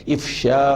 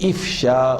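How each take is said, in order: The two takes are said the same way.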